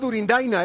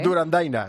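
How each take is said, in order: First: The second vowel is an i sound. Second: The second vowel is an a sound. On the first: The speaker calls it right. "Ah, Durindaina, es verdad" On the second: The speaker calls it wrong. "Otro error hoy"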